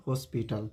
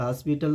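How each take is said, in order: First: हॉस्पिटल as "hoe-spital"; correct pronunciation. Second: हॉस्पिटल as "haspital"; wrong pronunciation. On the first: Teacher corrects to हॉस्पिटल with rounded "o". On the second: Teacher rejects हॉस्पिटल with open "a". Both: Shown as a demonstration. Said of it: "तो हॉस्पिटल नहीं".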